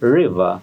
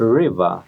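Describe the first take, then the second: First: The r is said like a Bengali r. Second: The r is said like an English r. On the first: The speaker calls it wrong. "রিভার রিভার না বলে" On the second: The speaker calls it right. "আমরা বলবো রিভার রিভার"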